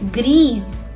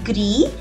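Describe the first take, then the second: First: It ends with a clearly heard z sound. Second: It ends on the vowel, with no z sound. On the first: The noun it describes is feminine. "the pronunciation is also changed" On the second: The noun it describes is masculine. "it is gris"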